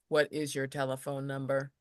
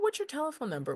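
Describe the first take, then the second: First: The pitch stays flat without inflection. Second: The pitch moves with lively inflection. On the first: It sounds like a robot. The speaker calls it wrong. "opposed to" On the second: It sounds like a human being. The speaker calls it right. "with with an inflection in my voice"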